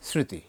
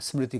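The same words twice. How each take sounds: First: The m is reduced to light nasalization. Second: The m is pronounced as a full consonant. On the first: This is how native speakers say it. "আমরা জানি যে এটা স্মৃতি, অনুনাসিক ধ্বনি আসবে" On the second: The word is read from its spelling. "স্মৃতি করবে, কারণ ওরা শব্দের অরিজিন দেখবে"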